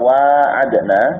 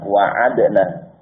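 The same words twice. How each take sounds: First: The first vowel is drawn out long. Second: The first vowel is kept short. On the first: The promise was made mutually. "dengan alif" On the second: The promise was made by one side. "tanpa alif"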